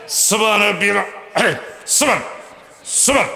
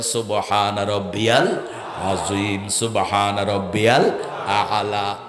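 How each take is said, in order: First: Clipped rushed tasbih, cut off mid-word; mock hasty praying. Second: Slow, distinct সুবহান রব্বিয়াল with every sound spoken out; clear slow pronunciation. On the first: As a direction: parody a worshipper gabbling through prayer. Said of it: "খুব দ্রুত তসবিহ পড়ে". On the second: Shown as a demonstration. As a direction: model the tasbih unhurried and articulated. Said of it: "নামাজে স্পষ্ট উচ্চারণ করেন".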